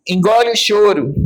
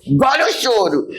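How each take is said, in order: First: Imitating mother. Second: Put-on a parent telling a child to stop crying; imitating scolding mother. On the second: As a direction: snap it like a mother. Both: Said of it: "Minha mãe falava pra mim".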